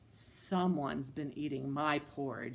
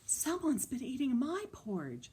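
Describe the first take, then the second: First: It is said in Papa Bear's voice. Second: It is said in Mama Bear's voice.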